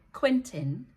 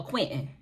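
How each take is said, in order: First: Quentin with a clearly released T, QUIN-tun; first way of Quentin. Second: Quentin with the T swallowed, QUIN'n; second way of Quentin. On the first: Vlogger showing one way to say a coworker's name, careful Quentin. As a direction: sound out both syllables of Quentin, voice rising. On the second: Vlogger showing the other way to say a coworker's name, casual Quentin. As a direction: drop the T in Quentin, voice falling. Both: Shown as a demonstration. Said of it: "say his name one or two ways".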